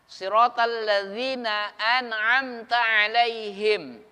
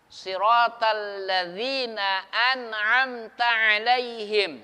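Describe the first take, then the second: Both takes have the same delivery.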